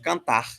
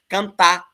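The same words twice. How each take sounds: First: The word ends with a final R sound. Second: The word ends without a final R sound.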